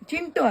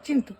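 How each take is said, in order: First: The middle consonant is a hard retroflex t. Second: The middle consonant is a soft dental th. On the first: The speaker calls it wrong. "ಚಿಂಟು ಅಲ್ಲ" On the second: The speaker calls it right. "T H ಯು"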